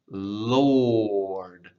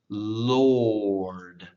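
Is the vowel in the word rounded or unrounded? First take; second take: rounded; rounded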